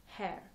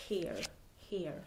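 First: "hair" with an open eh vowel; hair said correctly. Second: "hair" with an ee vowel, like "here". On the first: Correcting own slip for viewers, "hair" rhyming with "bear". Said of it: "It's called hair". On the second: Showing viewers a speech slip, "hair" said as "here". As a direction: say "hair" wrongly, rhyming with "ear". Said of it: "when I say hair". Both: Shown as a demonstration.

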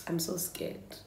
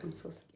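First: Said in the usual way. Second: Much softer, almost under her breath; hushed nervous repeat. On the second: Real, not acted. Vlogger repeating her fear to viewers, hushed. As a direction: let it drop away to nothing. Nervous before opening mask.

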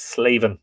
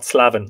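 First: "Slavin" with a long a, "SLAY-vin"; "Slavin" with the vowel of "day"; correct pronunciation. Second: "Slavin" with a short flat a, as in "slav"; "Slavin" with the vowel of "cat"; wrong pronunciation. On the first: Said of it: "That's how that name is pronounced". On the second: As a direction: say "Slavin" to rhyme with "ravin'" as in ravenous. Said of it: "It's not Slavin". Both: Shown as a demonstration.

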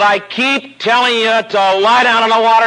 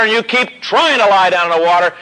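First: "lie" stressed as the simple instruction, higher and firm. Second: "trying" stressed with exasperation, higher. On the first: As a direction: lean on "lie" in "lie down in the water". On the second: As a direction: punch "trying" as the mistake. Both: Retold or imitated. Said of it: "but he was biting his teeth now".

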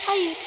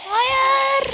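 First: Said in the usual way. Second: Tiz ve yüksek bir hayır çığlığı; acı içinde haykır; çaresiz bağırış. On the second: Real, not acted. Gol yiyince çaresizce bağırıyor. (gol yiyince yüksek sesle çaresizce bağırıyor)

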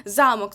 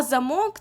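First: Замок with the stress on ЗА, said ЗАмок; stress on first syllable. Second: Замок with the stress on МОК, said заМОК; stress on last syllable. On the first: Teacher to students, Замок as castle with stress on ЗА. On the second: Teacher to students, замок as door lock with stress on МОК. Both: Shown as a demonstration. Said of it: "визначаємо лексичне значення за наголосом".

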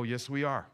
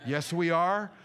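First: Said in the usual way. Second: Firmer, emphatic retort, rising at the end; defiant retort. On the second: Retold or imitated. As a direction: own it defiantly, pushing on "are". Repeats retort with more force.

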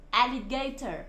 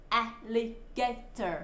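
First: Said in the usual way. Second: "Alligator" slowly split into four syllables. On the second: Shown as a demonstration. Teacher spelling out for children, "Alligator" broken into slow syllables. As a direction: sound out "Alligator" one syllable at a time. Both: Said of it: "các con đánh vần được".

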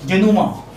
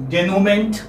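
First: "Denouement" as day-noo-MAH, silent final t; careful French-style "Denouement", no "ment" heard; correct French pronunciation. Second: "denouement" read as spelt, day-noo-MENT; anglicised spelling reading of "denouement", ending in "-ment"; uninformed mispronunciation. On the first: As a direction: end "Denouement" on an open "mah". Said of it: "This is how it is transcribed". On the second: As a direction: sound the final "ment" of "denouement" with its t. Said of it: "one who doesn't know the pronunciation might say". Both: Shown as a demonstration.

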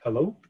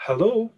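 First: Said in the usual way. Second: Hello pitched much higher, rising; higher repeat. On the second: Acted. A girl repeating hello on a bad line, higher. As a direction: ask again, higher and more anxious. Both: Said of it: "Mirren repeated".

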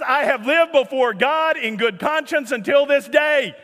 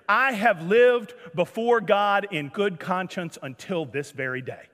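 First: Raised, louder voice in disbelief; incredulous shouted quote. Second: Solemn declaration. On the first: Retold or imitated. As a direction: shout the quote as if astonished anyone objected. Exasperated re-quote of the harmless statement. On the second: Acted. Guest solemnly introduces himself to pastor.

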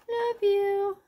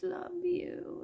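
First: Much higher and louder, cooing; sweet repeat. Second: Said in the usual way. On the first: Real, not acted. Seller admiring a love you ring, sweet coo. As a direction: coo it like a valentine.

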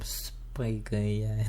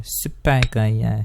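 First: Soft, slow, breathy-free murmur of a title; quiet slow. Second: Drawn-out slow title announcement. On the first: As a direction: say the title slowly and much softer. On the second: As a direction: stretch it out slowly like a title. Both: Pretend. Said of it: "videonun adını buldum".

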